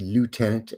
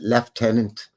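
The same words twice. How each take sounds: First: The word is said the American way. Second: The word is said the British way. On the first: "in the States it would be lieutenant" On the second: "We pronounce it lieutenant, like the Brits do"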